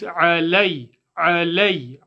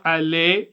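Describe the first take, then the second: First: "alay" with a full glide to y; firm, clear "alay" from the throat; correct diphthong. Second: "alay" ending in plain "eh"; "alay" without its closing glide; wrong monophthong. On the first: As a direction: say "alay" as "'a-lay", ending on the y. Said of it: "which makes". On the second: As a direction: show the mistake "alay" as "aleh", no y. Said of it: "It's not". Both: Shown as a demonstration.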